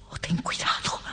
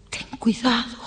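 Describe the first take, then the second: First: Hushed, secretive caution; whispered warning. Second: Higher, pleading caution; voiced warning. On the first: Acted. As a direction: whisper the warning to your husband. Warning husband, first take hushed. (advertencia susurrada) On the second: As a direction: repeat the warning aloud, pitched high. Repeats warning, now voiced higher. (advertencia en voz más aguda)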